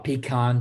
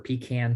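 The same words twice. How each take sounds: First: Pecan is said the Southern regional way. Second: Pecan is said the Northern regional way.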